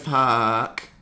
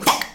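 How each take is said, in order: First: The word is stretched out slowly. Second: The word is clipped short and fast.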